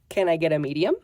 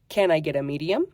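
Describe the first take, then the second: First: The words are blended together. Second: The words are blended together.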